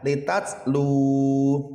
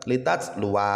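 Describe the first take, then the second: First: The word ends on a long 'lu' syllable. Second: The word ends with a 'wa' syllable. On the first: The speaker calls it right. "yang dibaca panjang bukan wa-nya tetapi lu-nya" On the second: The speaker calls it wrong. "tidak boleh"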